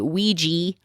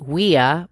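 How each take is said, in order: First: The word ends with a 'jee' sound. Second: The word ends with a 'ya' sound. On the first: "you say Ouija" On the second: "because it's ya, so it should be weya"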